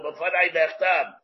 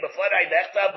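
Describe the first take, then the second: First: "B'fadai Nechtam" drawn out slowly, Nechtam falling at the end; slow and deliberate. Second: Said in the usual way. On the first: Shown as a demonstration. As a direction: spell out "B'fadai Nechtam" word by word. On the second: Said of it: "or "B'fadai Nechtam".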